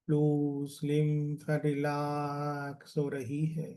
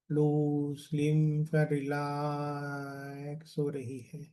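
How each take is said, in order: Both takes have the same delivery.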